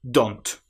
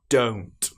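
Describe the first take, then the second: First: The vowel is a short O sound. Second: The vowel is a long O sound. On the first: The speaker calls it wrong. "They use the short O sound, don't. But this is incorrect" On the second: The speaker calls it right. "It needs to be O, don't"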